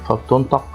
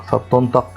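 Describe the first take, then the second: The two takes are said the same way.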